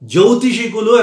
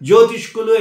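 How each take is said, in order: First: A vowel is heard between the sh and k. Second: The sh and k run together with no vowel. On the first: The speaker calls it right. "జ్యోతిషికులు అనాలి" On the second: The speaker calls it wrong. "జ్యోతిష్కులు అయిపోయింది"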